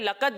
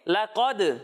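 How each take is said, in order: First: The final d stops flat without any echo. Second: The final d has a bouncing, echoing release. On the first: The speaker calls it wrong. "اسے ہم نے لقد نہیں پڑھنا" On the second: The speaker calls it right. "یہ دال میں جو آواز لوٹتی ہوئی محسوس ہو رہی ہے اسی کو کلکلا کہتے ہیں"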